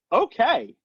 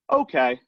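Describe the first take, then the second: First: High, strained, unhappy "Okay". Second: Said in the usual way. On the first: Shown as a demonstration. Caller answering the phone while having a tough day, strained "Okay". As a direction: let "Okay" betray a bad day. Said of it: "And they're like". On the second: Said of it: "And they go".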